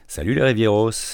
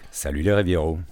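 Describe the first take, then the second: First: It is said in a light, friendly voice. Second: It is said in his deep, natural voice.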